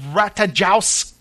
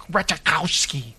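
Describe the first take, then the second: First: Ratajkowski said as ratazhows, rising, unsure; first try at the name. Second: Ratajkowski said as ret-a-kow-ski, falling, settled; corrected name. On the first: Host reading cast names, guessing the pronunciation. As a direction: stumble through Ratajkowski with a questioning rise. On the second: Host correcting his own mispronounced actress name. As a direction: land Ratajkowski firmly with a fall on the second try. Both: Shown as a demonstration.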